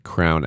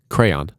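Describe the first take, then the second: First: The word is squeezed into one syllable, like 'crown'. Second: The word is said in two syllables, 'cray-on'. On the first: The speaker calls it wrong. "Crown, absolutely not" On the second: The speaker calls it right. "you say it right"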